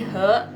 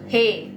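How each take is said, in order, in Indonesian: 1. Nada suku katanya naik. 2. Nada suku katanya tidak naik. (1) "He jadi naik" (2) "bukan dibacanya he"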